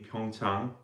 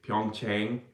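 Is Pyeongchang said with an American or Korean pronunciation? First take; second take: Korean; American. First: It is said with a Korean pronunciation. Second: It is said with an American pronunciation.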